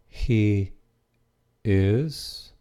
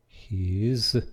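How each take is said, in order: First: It is said as two separate full words. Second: It is said as one contracted syllable.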